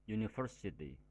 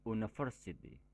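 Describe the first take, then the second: First: The word begins with a y sound. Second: The word begins with a plain vowel sound. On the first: The speaker calls it right. "diawali dengan suara konsonan Y" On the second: The speaker calls it wrong. "bukan university"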